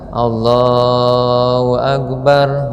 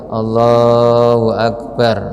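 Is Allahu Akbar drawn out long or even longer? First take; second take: longer; long. First: The phrase is drawn out even longer. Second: The phrase is drawn out long. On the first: The takbir lasts through rising to stand. "agak malah lebih panjang" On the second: The takbir lasts until reaching the bowing position. "disunatkan panjang sampai dengan plek ruku"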